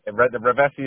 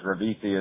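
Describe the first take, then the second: First: The name is said with Italian pronunciation. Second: The name is said with American pronunciation. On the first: The speaker calls it right. "Rovesi is the proper Italian way" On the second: The speaker calls it wrong. "Rovesi is the bastardized American version"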